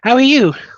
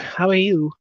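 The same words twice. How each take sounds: First: The greeting sounds warm and friendly. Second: The greeting sounds posh and cool. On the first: "but she was friendly to you" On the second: "I could give it like a posh English accent"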